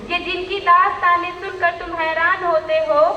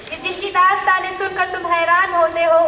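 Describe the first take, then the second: First: The line is recited at a slow pace. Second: The line is recited at a fast pace. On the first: The speaker calls it right. "आराम से बोलना" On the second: The speaker calls it wrong. "तेज बोल।"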